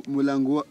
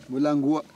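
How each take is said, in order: No difference in how they are said.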